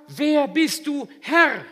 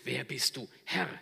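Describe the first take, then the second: First: Loud, much higher, slow cry; awed question. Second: A touch of trembling awe, near usual voice; moved, trembling question. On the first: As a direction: cry up in awe. Humbled Saul asks. (lauter ehrfürchtiger Ruf) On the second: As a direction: ask it shaken and moved. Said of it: "er fragt ergriffen, bebend". (ergriffen, bebend) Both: Acted.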